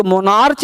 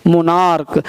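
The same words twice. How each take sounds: First: "मोनार्च" ending in ch as in church; wrong CH ending. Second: "मोनार्क" ending in a hard k; correct K ending. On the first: Teacher warning class off "मोनार्च" with ch. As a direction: say "मोनार्च" with final ch. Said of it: "मोनार्च नहीं पढ़ते हैं". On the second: Teacher correcting the class, "मोनार्क" with k. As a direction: say "मोनार्क" with final k, falling. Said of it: "इसको मोनार्च नहीं पढ़ते हैं". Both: Shown as a demonstration.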